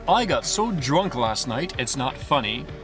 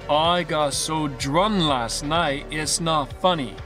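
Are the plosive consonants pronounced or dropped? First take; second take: pronounced; dropped. First: The k, p and t sounds are fully pronounced. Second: The k, p and t sounds are left out. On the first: The speaker calls it wrong. "Instead of saying" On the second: The speaker calls it right. "replace it with"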